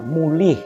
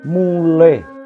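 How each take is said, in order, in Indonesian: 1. Kata ini diucapkan dengan vokal dialek Banyumasan. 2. Kata ini diucapkan dengan vokal bahasa Jawa baku. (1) "bukan mulih ... ini juga dialek Banyumasan" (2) "I bulat, contoh kata mulih"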